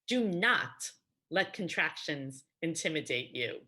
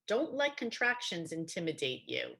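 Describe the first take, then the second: First: The negative is said as two full words. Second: The negative is contracted into one word.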